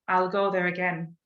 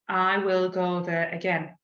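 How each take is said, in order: First: 'I will' is shortened and linked into 'I'll'. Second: Both words of 'I will' are said separately. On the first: The speaker calls it right. "linking those sound sounds together" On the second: The speaker calls it wrong. "we won't say"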